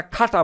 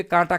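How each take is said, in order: First: "খাটা" with a breathy "kh" at the start; aspirated K. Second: "কাঁটা" with a plain K, no puff of air; unaspirated K. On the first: Teacher mocking a wrong swap for learners, aspirated "খাটা". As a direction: puff air after the K of "খাটা". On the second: Teacher asking how it would sound, plain-K "কাঁটা". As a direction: start "কাঁটা" on a hard, unbreathed K. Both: Shown as a demonstration. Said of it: "কাঁটা খাটা বলেন".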